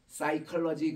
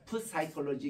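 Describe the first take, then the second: First: The word starts directly with an S sound. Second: The word starts with an audible P sound. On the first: "P가 묵음이 되고 그냥 사이컬러지라는 발음을 하잖아요" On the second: "분명히 P가 있어. 푸사이컬러지 이렇게 발음해야 되는데"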